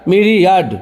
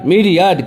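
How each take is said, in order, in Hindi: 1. Stress पहले अक्षर पर पड़ता है। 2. स्ट्रेस पहले अक्षर पर पड़ता है।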